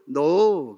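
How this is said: The pitch falls at the end. It is a firm denial. "그건 끝을 내려요"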